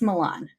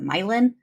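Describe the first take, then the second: First: It uses the standard pronunciation. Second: It uses the regional Midwestern pronunciation. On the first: This is how the name is meant to be said. "but it's Milan" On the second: This is how a place in the Midwest is called. "in Ohio or Illinois they pronounce it Milan"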